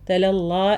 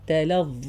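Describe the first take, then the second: First: The word ends with a light l sound. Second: The word ends with a heavy z-like sound. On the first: The speaker calls it wrong. "അല്ല" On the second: The speaker calls it right. "നാവിൻ്റെ അറ്റത്ത് തന്നെ വരുന്ന സൗണ്ടാണിത്"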